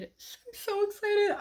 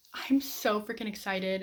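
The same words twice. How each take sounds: First: Much higher, slow, squealed "excited"; squealing excitement. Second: Said in the usual way. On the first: Shown as a demonstration. Vlogger gushing to viewers about her next read, giddy high squeal. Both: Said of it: "repeats then stretches it".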